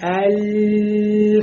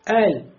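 First: The L is held and drawn out too long. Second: The L is short and clean, without extras. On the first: The speaker calls it wrong. "нельзя буксовать на «ляме»" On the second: The speaker calls it right. "просто «эль»"

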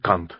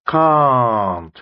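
First: The vowel is short and clipped. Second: The vowel is long and drawn out. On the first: It sounds like a vulgar slang word. The speaker calls it wrong. "can't с коротким А" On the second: It means cannot. The speaker calls it right. "нужно тянуть can't"

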